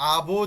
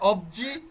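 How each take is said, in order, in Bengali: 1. প্রথম স্বরবর্ণটি 'a' এর মতো শোনায়। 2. প্রথম স্বরবর্ণটি 'o' এর মতো শোনায়। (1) "স্বরবর্ণ আ আছে এখানে" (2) "কোথায় অবজি"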